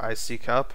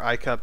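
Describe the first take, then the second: First: It is said as three syllables, eye-see-cup. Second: It is said as two syllables, eye-cup. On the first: The speaker calls it right. "I'm pretty sure it's I C cup" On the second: The speaker calls it wrong. "You're pronouncing it totally wrong"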